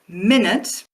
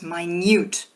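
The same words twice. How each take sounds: First: The stress is on the first syllable. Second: The stress is on the second syllable. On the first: "stress on the first syllable" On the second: "stress on the second syllable"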